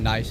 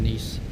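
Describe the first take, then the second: First: The vowel sounds like 'eye', as in English 'nice'. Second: The vowel sounds like 'ee', as in 'niece'. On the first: The speaker calls it wrong. "I ended up saying nice as well" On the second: The speaker calls it right. "rather than Nice"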